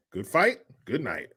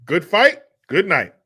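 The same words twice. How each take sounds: First: Low-key quoted catchphrase; understated catchphrase sign-off; show catchphrase. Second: Louder, punched-up catchphrase; emphatic quoted sign-off, starting high and loud; show catchphrase. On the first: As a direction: toss off a show's sign-off lightly. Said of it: "What show is that from?". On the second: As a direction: throw out the sign-off like a TV host prompting fans. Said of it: "Come on, nineties people". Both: Acted.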